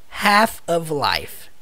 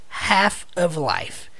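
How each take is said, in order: The two takes are said the same way.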